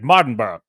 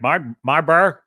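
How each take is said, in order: First: The name is said quickly, run together. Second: The name is said slowly, syllable by syllable. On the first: This is how British people say it. "The British say it so fast" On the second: This is how the speaker says it. "I'm like"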